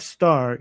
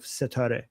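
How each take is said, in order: First: Said in the usual way. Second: "setare" with an e between s and t; three syllables, se-ta-re, for "setare"; Persian word form. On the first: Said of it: "you don't have star". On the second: Shown as a demonstration. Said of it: "add more vowels to make it work".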